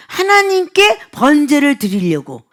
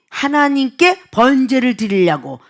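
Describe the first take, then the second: First: "하나님께 번제를 드리려고" slow and deliberately weighted; pointed emphasis. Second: Said in the usual way. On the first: Shown as a demonstration. Preacher repeating the people's excuse so listeners grasp it, slow and pointed. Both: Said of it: "이 말을 잘 이해해 보세요".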